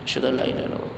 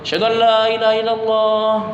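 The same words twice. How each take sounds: First: It is said softly, in a low voice. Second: It is said loudly, in a raised voice. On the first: It is said to oneself with reflection. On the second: It is called out to others.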